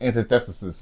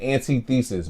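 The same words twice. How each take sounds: First: It uses the usual standard pronunciation. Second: It uses the speaker's own nonstandard pronunciation. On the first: The speaker calls it right. "how you really pronounce it" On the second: The speaker calls it wrong. "I know I'm saying the word wrong"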